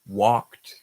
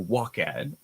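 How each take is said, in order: First: The ending adds no separate syllable. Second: The ending is said as a separate syllable. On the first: The speaker calls it right. "We typically only pronounce the D" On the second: The speaker calls it wrong. "We never say"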